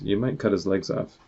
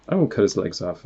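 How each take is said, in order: First: Main stress on "cut". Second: Firm emphasis on "won't"; stress on WON'T. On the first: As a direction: lean on "cut" as a word of warning. Worried friend warns the laser shooter. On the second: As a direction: rebut it by leaning on "won't". Character rebuts the warning, contradicting it. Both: Acted.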